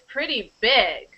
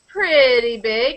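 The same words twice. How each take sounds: First: The word big carries the main stress. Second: The voice falls, with no stress on big. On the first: It is very big. "if you emphasize the adjective, the main one, then it means very" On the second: It is only somewhat big. "If it goes down, then mm, maybe it's not so big"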